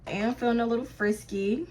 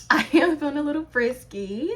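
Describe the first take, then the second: First: Said in the usual way. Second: Teasing announcement, rising at the end; playful. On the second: Acted. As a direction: say it cheekily, lifting up on frisky. Repeats the line more playfully.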